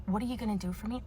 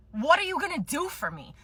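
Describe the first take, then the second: First: Softer, flat mock echo with a lift on are; mocking quote. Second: Higher, entitled demand leaning on what; demanding customer. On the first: Clerk mocking what customers say, quiet contemptuous echo. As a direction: parrot the line with contempt. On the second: Acted. Demanding customer pressing the clerk, entitled whiny demand. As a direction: push it like you're owed something. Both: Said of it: "I fucking hate when people say that to me".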